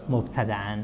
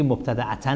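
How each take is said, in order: First: مبتدأً said as mobtada'an, quiet; teacher gives the correct مبتدأً, ending -an; right form shown. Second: مبتدأتاً as the wrong ending -tan; teacher shows the wrong مبتدأتاً, tanvin with extra -ta-; wrong form shown. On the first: Teacher corrects students, quietly saying مبتدأً. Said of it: "باید بگیم چی؟". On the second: Teacher warns students off the wrong form, مبتدأتاً said as wrong. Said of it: "نباید بگیم". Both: Shown as a demonstration.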